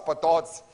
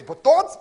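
First: Said in the usual way. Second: High, loud disbelieving question; incredulous. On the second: Retold or imitated. Disciples told to count every fish, high and loud in disbelief. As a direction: cry it out in disbelief.

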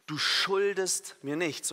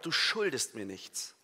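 First: SCHULDEST stretched out slowly and raised; stress on SCHULDEST. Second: SCHULDEST stressed, then the phrase falls away. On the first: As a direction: lean long on the verb "schuldest". (Betonung auf SCHULDEST, langsam gedehnt) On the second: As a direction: put the weight on the verb "schuldest". (Betonung auf SCHULDEST, am Ende fallend) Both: Shown as a demonstration. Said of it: "die Betonung liegt auf dem Verb".

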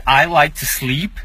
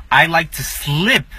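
First: "sleep" with a long ee, slowly; correct long ee. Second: "slip" short and clipped, slowly. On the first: Teacher showing the right "sleep". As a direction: hold the ee in "sleep". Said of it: "eu gosto de dormir". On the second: Teacher showing the wrong "slip" meaning slide. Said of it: "eu gosto de escorregar". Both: Shown as a demonstration.

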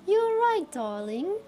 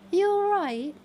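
First: British "you all right, darling"; British accent. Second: Higher, brighter British greeting; British "you all right?"; British accent. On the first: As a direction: play a chirpy British local. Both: Shown as a demonstration. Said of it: "qualified enough for a British accent".

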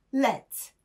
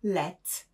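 First: Second let said higher and louder; the past participle let ringing higher; let raised. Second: Said in the usual way. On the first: Shown as a demonstration. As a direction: lift the repeated let up and out. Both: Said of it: "Jego forma przeszła oraz past participle".

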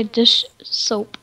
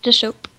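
First: "dish soap" as two careful, separated words; said separately. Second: "Dish soap" run quickly together as one word; said really fast. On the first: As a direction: pause between "dish" and "soap". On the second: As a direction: rush "Dish soap" with no gap. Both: Shown as a demonstration. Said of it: "like, really fast".

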